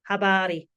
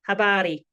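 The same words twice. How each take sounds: First: The R is a quick tongue tap. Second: The same.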